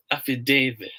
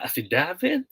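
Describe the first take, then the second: First: "affidavit" with DA said as "day", falling; long A in affidavit. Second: "affidavit" with DA as in "dad", rising; short A in affidavit. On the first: Teacher weighs the options for viewers, long-A affidavit. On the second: Teacher weighs the options for viewers, short-A affidavit. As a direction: offer "affidavit" with short A as a question. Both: Shown as a demonstration. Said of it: "Ano ba?".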